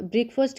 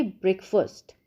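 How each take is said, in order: First: ब्रेकफास्ट with a long aa in the second syllable, faast; wrong breakfast pronunciation. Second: ब्रेकफास्ट with a short a, brek-fust, not faast; correct breakfast pronunciation. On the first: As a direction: say ब्रेकफास्ट as brek-faast, the common mistake. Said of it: "फास्ट नहीं बोलेंगे". (ब्रेकफास्ट में लंबा आ, गलत उच्चारण) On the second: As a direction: say ब्रेकफास्ट with a short neutral vowel in the second syllable. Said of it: "अ की आवाज़ देनी है हमें". (ब्रेकफास्ट में छोटा अ, सही उच्चारण) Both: Shown as a demonstration.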